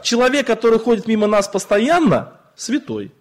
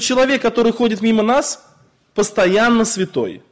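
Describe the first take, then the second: First: The pause comes after the word 'постоянно'. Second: The pause comes before the word 'постоянно'. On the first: The person who always walks past us is holy. The speaker calls it right. "Там запятая стоит не в том месте" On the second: The person is always holy. The speaker calls it wrong. "Он постоянно святой"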